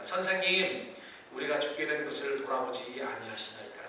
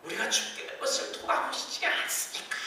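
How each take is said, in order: First: Calm, measured reading of the plea; dignified, calm. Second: Higher, half-shouted panicked plea; mock shout. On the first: Shown as a demonstration. Disciples addressing Jesus, read calmly and dignified. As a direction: say it gently, with composure. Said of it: "저는 이렇게 점잖게 말했지만은". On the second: Disciples waking Jesus in the storm, mock shouting. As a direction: yell it out as if the boat is sinking. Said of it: "소리를 지르면서".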